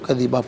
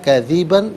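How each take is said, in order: First: The word ends with a long a vowel. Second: The word ends with an n sound. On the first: The reading stops at this word. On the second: The reading continues without stopping here.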